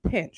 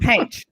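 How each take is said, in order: First: The word is said plainly, as it is spelled. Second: The word is said with a Texan accent. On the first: This matches the spelling. "Pinch is spelled P I N C H" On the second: This is how a parent from Texas said it. "I'm gonna pronounce it the way I grew up hearing it because my dad is from Texas"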